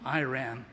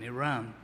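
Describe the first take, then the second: First: Iran is said with an American-style pronunciation. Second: Iran is said with a British-style pronunciation.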